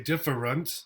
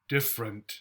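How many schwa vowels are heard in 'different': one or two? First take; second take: two; one. First: Both unstressed vowels are reduced to schwa. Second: Only one unstressed vowel is reduced to schwa. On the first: "then they have two, a schwa and a schwa" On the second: "They may only give you the schwa here"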